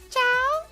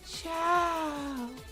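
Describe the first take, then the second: First: The voice sounds only slightly hollow. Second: The voice sounds very hollow. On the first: The speaker calls it wrong. "said Cheese in a hollow voice" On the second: The speaker calls it right. "I'll try a more hollow voice"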